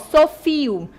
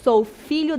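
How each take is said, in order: First: The middle lh sound is replaced by an i. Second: The middle lh sound is fully pronounced. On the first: It reflects the speaker's informal spoken speech. "tem essa marca de oralidade" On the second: It follows standard written grammar. "do que é adequado"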